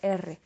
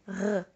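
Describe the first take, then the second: First: The R is made the Spanish way. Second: The R is made the French way. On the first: This is an R that French does not use. The speaker calls it wrong. "and not that R" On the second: This is the R that French uses. The speaker calls it right. "that's why we have that R"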